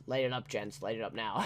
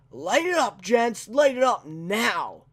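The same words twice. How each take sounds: First: Soft, low half-hearted repeat of the order; muttered retake. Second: Loud, high mock command to open fire; villain's order. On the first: Retold or imitated. Redoing the villain's line, a soft low half-hearted mutter. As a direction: mumble it, giving up on the impression. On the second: Quoting the villain ordering his men, a loud mock command. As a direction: bark it like a cocky henchman. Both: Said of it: "It's not as good".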